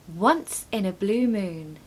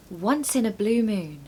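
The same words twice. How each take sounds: First: Slow, clear model of "once in a blue moon". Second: Said in the usual way. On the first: Shown as a demonstration. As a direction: say it slowly for learners to copy. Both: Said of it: "Number three".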